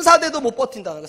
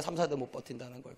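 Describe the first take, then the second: First: Said in the usual way. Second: Much softer and lower repeat; hushed, lower echo of the warning; quiet echo. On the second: Shown as a demonstration. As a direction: let it land softly. Repeated for emphasis.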